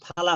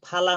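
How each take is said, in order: Both takes have the same delivery.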